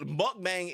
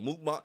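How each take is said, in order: First: "Mukbang" said as "muck-bang", short uh and flat a as in cat; the common anglicized "Mukbang", muck-bang; wrong pronunciation. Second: "mukbang" said as "mook-bahng", rounded oo and open ah; correct pronunciation. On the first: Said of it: "Mukbang is not how you say it". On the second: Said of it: "'cause that's how you really say it". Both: Shown as a demonstration.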